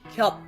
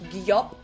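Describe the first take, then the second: First: The sound is said quickly as one syllable. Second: The sound is stretched into two syllables. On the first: The speaker calls it right. "It needs to happen in one go. So say it quite quickly" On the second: The speaker calls it wrong. "We're not extending the sound into two syllables"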